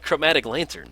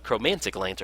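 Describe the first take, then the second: First: The first word has no extra n sound. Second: The first word has an extra n sound. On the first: The speaker calls it right. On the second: The speaker calls it wrong.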